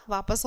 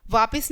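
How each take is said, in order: First: Said in the usual way. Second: "वापिस" with short I in the second syllable; wrong I vowel. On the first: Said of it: "वापस होता है". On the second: Shown as a demonstration. Teacher rejects a misspelling, "वापिस" with I. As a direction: say "वापिस" as vaapis. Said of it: "वापिस नहीं होता".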